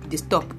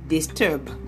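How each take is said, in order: First: The word ends with a p sound. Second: The word ends with a b sound. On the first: The speaker calls it wrong. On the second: The speaker calls it right.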